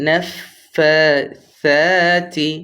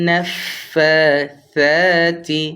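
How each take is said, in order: The two takes are said the same way.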